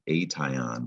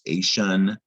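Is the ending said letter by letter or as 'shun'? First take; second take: letter by letter; shun. First: Each letter is sounded, with a clear t sound. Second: The ending is said as a soft 'shun' sound. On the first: The speaker calls it wrong. "It looks like it should say ation" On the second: The speaker calls it right. "it's pronounced ation or ashin"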